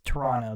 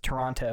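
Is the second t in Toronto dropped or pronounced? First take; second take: dropped; pronounced. First: The second t is left out. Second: The second t is clearly pronounced.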